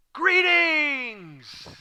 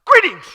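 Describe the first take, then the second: First: High, long sing-out that slides down; hammed-up, lingering high hello; drawn-out greeting. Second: Short, high, loud burst; spring it on them like a surprise; sudden shrill-pitched surprise shout. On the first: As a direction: hail them in a big, stretched call. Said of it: "what was the inflection? ... how did he say that?". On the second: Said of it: "Or like, surprise". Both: Shown as a demonstration.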